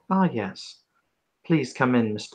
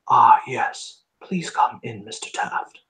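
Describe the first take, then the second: First: It is said in his natural voice. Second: It is said in a put-on character voice.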